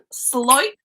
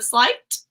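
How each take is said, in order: First: "slight" with the final t dropped, rising; accent pronunciation. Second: Said in the usual way. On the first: Shown as a demonstration. Showing viewers her accent's way of saying "slight", t dropped. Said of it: "I say". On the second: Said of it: "instead of slight".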